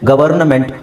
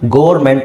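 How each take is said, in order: First: An n sound comes before the ending ment. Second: The word is squeezed into two syllables, gor-ment. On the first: "ಗವರ್ನಮೆಂಟ್ ಗೋರ್ಮೆಂಟ್ ಅಂತ ಹೇಳೋದಿಲ್ಲ" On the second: "ಗವರ್ನಮೆಂಟ್ ಗೋರ್ಮೆಂಟ್ ಅಂತ ಹೇಳೋದಿಲ್ಲ"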